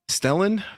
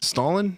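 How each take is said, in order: First: The name sounds like Stellan. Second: The name sounds like Stalin. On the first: The speaker calls it right. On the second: The speaker calls it wrong.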